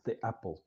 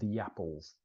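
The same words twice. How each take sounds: First: A small pause separates the two words. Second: A soft Y sound joins the two words. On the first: The speaker calls it wrong. "we don't say the apples, the apples, because it creates that pause, that gap" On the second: The speaker calls it right. "we force them to connect by putting this soft consonant, which is a Y sound"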